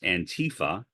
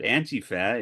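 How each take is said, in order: First: The beginning does not sound like 'anti'. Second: The beginning sounds like 'anti' in anti-fascism. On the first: It hides the link to anti-fascism. The speaker calls it wrong. "commonly mispronounced by uh, former President Donald Trump as Antifa" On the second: It shows the link to anti-fascism. The speaker calls it right. "But Antifa is clear. Anti-fascism"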